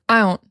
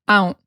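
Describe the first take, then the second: No difference in how they are said.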